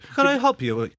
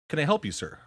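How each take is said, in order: First: It is said in a put-on British accent. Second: It is said in a plain, unaccented voice.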